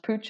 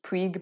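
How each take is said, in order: First: The name is said the Spanish way. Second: The name is said in an anglicized way. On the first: The speaker calls it right. "they're actually Spanish. That's why it's pronounced Pooch" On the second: The speaker calls it wrong. "I think for years I thought it was pronounced Puig"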